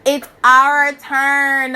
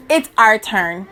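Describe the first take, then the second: First: "It's our turn" dragged out slowly, OUR leaned on; slow emphatic. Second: Said in the usual way. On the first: Shown as a demonstration. Rallying her listeners, slow and emphatic.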